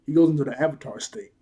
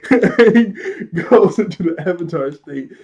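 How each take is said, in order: First: Said in the usual way. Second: Slow, loud, higher, through laughter; laughing. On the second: Real, not acted. Reviewer tickled by Aang's transformation, real laughing. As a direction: repeat it while cracking up.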